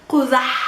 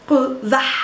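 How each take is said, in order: The two takes are said the same way.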